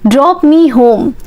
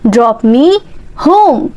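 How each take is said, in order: First: Said in the usual way. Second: Slow chunked drill. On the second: Shown as a demonstration. Teacher drilling learners, slow chunked repeat. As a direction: split for learners to copy.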